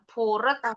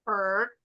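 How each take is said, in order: First: The ending adds a separate 'ed' syllable. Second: The ending has no separate 'ed' syllable. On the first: The speaker calls it wrong. "bukan purret" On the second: The speaker calls it right. "Jadi nggak ada bunyi ed-nya"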